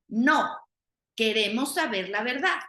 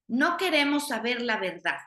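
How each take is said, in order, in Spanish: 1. Hay una pausa después de la primera palabra. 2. La frase sigue sin ninguna pausa.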